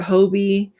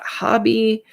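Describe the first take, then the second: First: "Hobie" said with a long o, HOH-bee. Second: "Hobby" said with an open "ah", HAH-bee; HOBBY with short open o. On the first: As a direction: say "Hobie" with "oh" in the first syllable. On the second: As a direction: say "Hobby" to rhyme with lobby. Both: Shown as a demonstration. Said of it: "How do you say that?".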